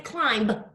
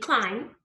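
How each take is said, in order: First: The final b sound is pronounced. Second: The final b is silent. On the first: The speaker calls it wrong. "we don't say climb" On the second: The speaker calls it right. "It has this silent B"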